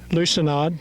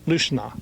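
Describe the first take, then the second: First: The word ends with an audible D sound. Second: The word ends without any D sound. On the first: The speaker calls it wrong. "I said the D, that should be silent" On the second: The speaker calls it right. "that should be silent"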